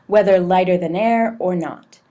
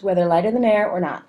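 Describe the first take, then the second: First: It is read at a moderate pace. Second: It is read very fast. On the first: The speaker calls it right. "somewhere in between. Maybe something like this" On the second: The speaker calls it wrong. "that's clearly too fast"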